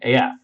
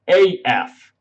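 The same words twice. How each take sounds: First: It sounds relaxed and casual. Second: It sounds stiff and self-conscious. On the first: The speaker calls it right. "saying like A F more naturally" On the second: The speaker calls it wrong. "I don't say it well"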